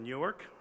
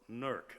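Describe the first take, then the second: First: It is said in the standard way, two syllables. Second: It is said the local way, one syllable.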